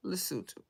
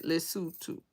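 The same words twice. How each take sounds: First: Lesotho as "luh-SOO-too", soft and falling; Lesotho said properly. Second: Lesotho repeated as "li-SOO-too", quiet and careful; Lesotho said properly. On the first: Teaching the chat the local way: Lesotho as luh-SOO-too. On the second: Showing viewers how to say it: Lesotho as li-SOO-too. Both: Shown as a demonstration. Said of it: "you have to say it like that".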